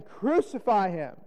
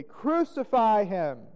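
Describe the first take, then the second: First: Slow, drawn-out call for condemnation; crowd's cry. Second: Higher, louder, drawn-out crowd cry; more exceeding cry. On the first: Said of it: "they cried out again". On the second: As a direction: cry out harder, stretching the words. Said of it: "cried out the more exceedingly". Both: A narrator's reading.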